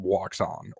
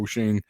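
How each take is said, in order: First: The name starts with a w sound, like 'Waxon'. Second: The name starts with a vowel, like 'Oshing'. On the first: This is how the speaker and locals say it. "Waxon is what I call it" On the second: This is how some other people say it. "Some people call it Oshing"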